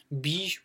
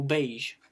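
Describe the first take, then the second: First: Beige said as "beezh"; first phonetic variant. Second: Beige said as "behzh"; second phonetic variant. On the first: Teacher offers two options, beige pronounced "beezh". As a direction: say beige slowly with an "ee". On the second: Teacher offers two options, beige pronounced "behzh". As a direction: say beige slowly with an "eh". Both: Shown as a demonstration. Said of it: "les deux phonétiques".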